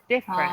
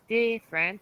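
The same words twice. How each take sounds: First: The first vowel is a short ih sound. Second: The first vowel sounds like a long ee. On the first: The speaker calls it right. "you want to go I, I, I, different" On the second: The speaker calls it wrong. "instead of going different"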